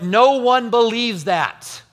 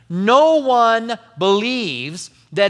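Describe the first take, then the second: First: It is said in a plain, unemphatic way. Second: It is said with strong, forceful emphasis.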